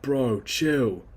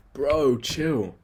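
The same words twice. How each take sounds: First: Squeezed from the throat, louder bro impression; odd throat-made bro voice. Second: Said in the usual way. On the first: Shown as a demonstration. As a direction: push it out through the throat like a bro. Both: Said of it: "it's so weird how I'm doing that with my throat".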